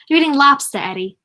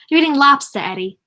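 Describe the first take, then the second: First: It is said in the mother's regional accent. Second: It is said in the mother's regional accent.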